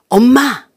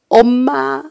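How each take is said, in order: First: It is shouted angrily. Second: It sounds like begging for more food.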